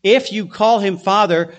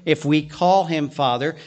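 First: "if" pushed out firmly, the rest falling away; stress on IF. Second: "call" lifted and held, the line rising at the end; stress on CALL. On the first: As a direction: lean hard on the word "if" as a condition. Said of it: "Now the if is". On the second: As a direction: point to the word "call" as the key word. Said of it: "The word call here". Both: Shown as a demonstration.

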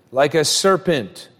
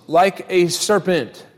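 The two takes are said the same way.

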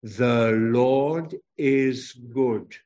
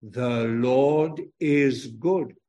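First: Very slow, every word spaced out; slow group recitation. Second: Slow, word by word, leaning on good; slow recitation again. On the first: Preacher leading children in slow recitation. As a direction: lead the children through it word by word. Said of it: "Say 'em with me now". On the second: Preacher repeating the line slowly with children. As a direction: say it with the children once more. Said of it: "Say it again". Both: Shown as a demonstration.

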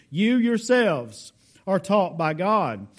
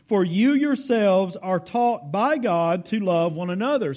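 First: Slow, stressing "You yourselves"; emphatic. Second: Said in the usual way. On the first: Shown as a demonstration. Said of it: "He's emphatic about this". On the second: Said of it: "It's emphatic".

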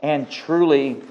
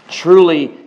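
First: Said in the usual way. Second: Truly said louder, driven home; emphatic repeat. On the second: Real, not acted. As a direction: hammer the repeated truly harder. Preacher repeats word for emphasis.

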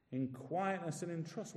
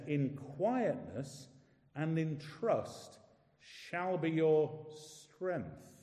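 First: Soft repeated phrase, much quieter; softer echo. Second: Very slow, each phrase given weight; slow scripture reading. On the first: Preacher echoing the promise quietly to the congregation. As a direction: murmur it back to yourself. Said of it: "repeats the phrase softly". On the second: Preacher reading the promise slowly to the congregation. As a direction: let each word settle. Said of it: "slow emphatic scripture reading". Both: Shown as a demonstration.

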